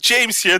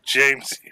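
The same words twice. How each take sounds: First: It sounds super happy and high-energy. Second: It sounds low-energy and defeated.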